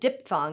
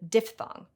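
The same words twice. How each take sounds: First: The PH-TH cluster in the middle is simplified. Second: The PH-TH cluster in the middle is kept. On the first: The speaker calls it wrong. "so often said diphthong" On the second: The speaker calls it right. "instead of diphthong"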